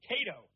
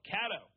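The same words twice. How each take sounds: First: Cato said as KAY-toh; "Cato" with first syllable like "Kay"; pronouncing Cato. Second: Cato said as KAT-oh; "Cato" with first syllable like "cat"; alternative Cato pronunciation. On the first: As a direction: say "Cato" with a long A. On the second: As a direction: say "Cato" with a short A. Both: Shown as a demonstration. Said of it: "However you wanna pronounce it".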